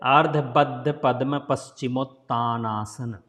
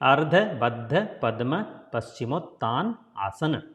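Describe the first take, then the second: First: The name runs together in one breath. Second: The name is split into separate words. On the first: "putting together" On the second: "If you say separately"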